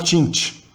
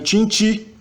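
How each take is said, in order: First: The final i vowel is silent. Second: The final i vowel is pronounced. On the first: "mas você fala tinte. O I final não soa" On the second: "Se escreve tinte"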